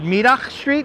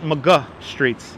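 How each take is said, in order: First: The name starts with 'mid' and ends with 'dach'. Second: The name starts with 'ma' and ends with 'guh'. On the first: The speaker calls it right. "that's how you correctly pronounce it" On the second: The speaker calls it wrong. "Most people pronounce it"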